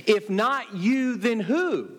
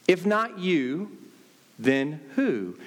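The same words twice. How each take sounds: First: "you" hit hard, slow and higher; stress on you. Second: "not" rises and carries the weight, slow; stress on not. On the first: Preacher challenging Christians, stress on "you". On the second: Preacher repeating the challenge, stress on "not". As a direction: let "not" lift the question. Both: Acted. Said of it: "what we need to understand is this".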